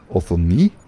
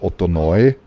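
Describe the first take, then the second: First: The name ends with an 'ee' sound. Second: The name ends with an 'oy' sound. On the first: The speaker calls it right. "wird ebenfalls nur als I ausgesprochen, nicht als Eu" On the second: The speaker calls it wrong. "die Leute sagen ... aber das ist nicht so"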